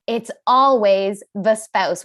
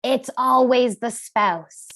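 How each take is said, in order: First: Slow, always stressed again; knowing repeat on ALWAYS; repeated verdict. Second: Slow, leaning on always; stress on always. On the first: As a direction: hammer the point home. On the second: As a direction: deliver the verdict slowly. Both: Shown as a demonstration. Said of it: "I'll tell you this much".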